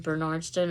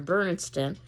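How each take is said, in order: First: Bernardston stressed on NARD, ber-NARD-ston; stress on second syllable. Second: Bernardston stressed on BER, BER-nardston; stress on first syllable. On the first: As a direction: put the accent on the middle of Bernardston. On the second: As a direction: put the accent at the front of Bernardston. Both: Shown as a demonstration. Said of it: "where you're putting the accent".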